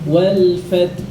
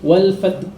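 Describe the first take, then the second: First: The final h sound is clearly pronounced. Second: The final h sound is dropped. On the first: Every letter of the verse is read. The speaker calls it right. "Maka harus disebutkan wal fath" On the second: A letter of the verse is lost. The speaker calls it wrong. "tidak boleh wal fat, wal fat, haknya hilang"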